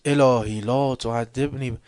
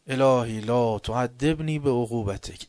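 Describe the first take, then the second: First: Same slow line, pushed louder and breaking off; louder pleading repeat. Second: Slow, measured plea to God; pleading recitation. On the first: Worshipper repeating the prayer again, louder and more urgent. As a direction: press the plea harder, cut it short. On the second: Worshipper repeating the prayer line, slow pleading recitation. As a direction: recite the line slowly, first time through. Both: Retold or imitated. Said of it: "اینقدر گفت گریه کرد".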